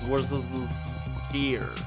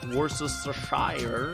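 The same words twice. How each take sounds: First: The final syllable sounds like 'sheer'. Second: The final syllable sounds like 'shire'. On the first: The speaker calls it right. "I just say sheer instead" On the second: The speaker calls it wrong. "it's not Worcestershire, whatever that is"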